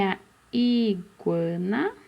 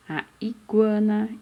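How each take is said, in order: First: Iguana slow, with a long held I; stretched first vowel. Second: Said in the usual way. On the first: Shown as a demonstration. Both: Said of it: "Com a letrinha I".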